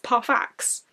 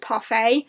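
First: The final x is sounded, ending in an ks sound. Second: The final x is silent, ending in an ay sound. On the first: The speaker calls it right. "according to the audiobook, it is actually Ferius Parfax" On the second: The speaker calls it wrong. "I've always pronounced Ferius's name as Ferius Parfait"

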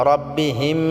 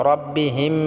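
Both takes have the same delivery.

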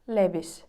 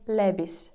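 The two takes are said the same way.

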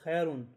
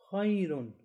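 First: The vowel is short and not elongated. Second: The vowel is softly elongated with a round voice. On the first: The speaker calls it wrong. "It shouldn't be the case that we are reciting like this" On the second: The speaker calls it right. "with soft elongation and a round voice"

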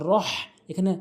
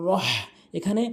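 The two takes are said the same way.

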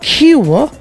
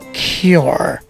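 First: The word is said with a British accent. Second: The word is said with an American accent. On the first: "British would say cure" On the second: "American cure"

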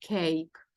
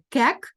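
First: The vowel is an 'ay' sound. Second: The vowel is a short 'eh' sound. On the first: The speaker calls it right. "а кейк" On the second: The speaker calls it wrong. "Тому ми читаємо не кек"

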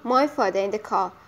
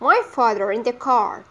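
First: The R sounds at the ends of 'father' and 'car' are dropped. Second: The R sounds at the ends of 'father' and 'car' are pronounced. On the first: This is the British way of saying it. "this is the British way" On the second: This is the American way of saying it. "while the American people say"

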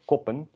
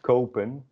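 First: The first vowel is short and lax. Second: The first vowel is long and tense. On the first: The speaker calls it wrong. "not koppen" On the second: The speaker calls it right. "it's pronounced kopen"

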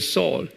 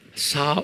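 First: The name is said with English pronunciation. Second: The name is said with Jewish pronunciation. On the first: "In English, pronunciation Saul"

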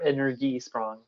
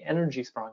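First: The word is pronounced the German way. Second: The word is pronounced the plain English way.

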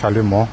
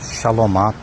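First: The word ends in an 'o' sound. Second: The word ends in an 'a' sound. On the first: The speaker calls it right. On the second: The speaker calls it wrong.

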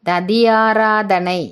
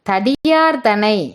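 First: The word is said with every syllable. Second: The word is clipped, dropping a syllable. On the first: The speaker calls it right. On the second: The speaker calls it wrong.

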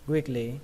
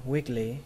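No difference in how they are said.

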